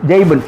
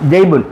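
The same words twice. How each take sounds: The two takes are said the same way.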